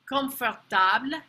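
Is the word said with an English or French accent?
French. The word is said with a French accent. "how a French person might say it"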